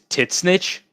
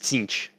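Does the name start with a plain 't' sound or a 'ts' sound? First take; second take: t; ts. First: It sounds like two words, 'tit snitch'. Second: It is one syllable starting with 'ts'. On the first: The speaker calls it wrong. "some dumb idiot decided to tell him that how you pronounce Tzeentch is tit snitch" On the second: The speaker calls it right. "that's not how you pronounce it. It's it's Tzeentch"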